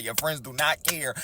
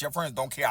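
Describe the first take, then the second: First: "do not care" slow and separated; deliberate weight on "do not care"; emphatic repeat. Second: Said in the usual way. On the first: Retold or imitated. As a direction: spell out "do not care" word by word. Emphatic repeat after swearing.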